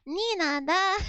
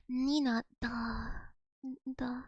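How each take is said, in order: First: "Nina, da" with a Japanese accent. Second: "Nina, da" in a low, soft Russian accent; Russian mode. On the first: Russian words slipping into a Japanese accent. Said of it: "My Japanese accent came out". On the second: Switching into Russian mode to sound properly Russian. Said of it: "Russian mode on". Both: Shown as a demonstration.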